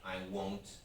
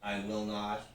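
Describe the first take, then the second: First: The words will not are contracted to one syllable. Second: The words will not are said in full.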